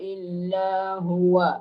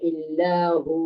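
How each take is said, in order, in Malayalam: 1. അവസാന വാക്ക് ചെറിയ 'wa' അക്ഷരത്തിലാണ് അവസാനിക്കുന്നത്. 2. അവസാന വാക്ക് നീട്ടിയ നീണ്ട 'oo'യിലാണ് അവസാനിക്കുന്നത്.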